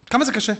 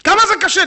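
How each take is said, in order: First: Said in the usual way. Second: "זה" hit high and louder; higher, louder rhetorical question leaning on "זה"; emphatic challenge. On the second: Shown as a demonstration. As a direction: throw "כמה זה קשה?" up at the crowd with "זה" stressed.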